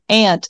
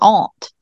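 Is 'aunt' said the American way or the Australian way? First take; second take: American; Australian. First: Aunt is said with an American vowel. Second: Aunt is said with an Australian vowel. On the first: "calling someone like aunt, like we usually do" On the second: "he would use the Australian version"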